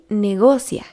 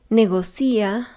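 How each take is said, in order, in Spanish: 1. La sílaba tónica es 'go'. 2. La sílaba tónica es 'ci'. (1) "Lo correcto es decir" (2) "pronunciados mal"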